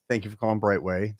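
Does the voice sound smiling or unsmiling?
smiling. It is said with a smile in the voice. The caller is warmly welcomed. The speaker calls it right. "you say it with a smile on your face"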